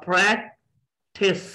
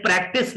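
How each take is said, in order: First: Practice split as "praek... tis"; two syllables. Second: Said in the usual way. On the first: Shown as a demonstration. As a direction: break practice after "prak", then "tis". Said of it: "यानी प्रैक और थिस". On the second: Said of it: "मैंने practice नहीं कहा".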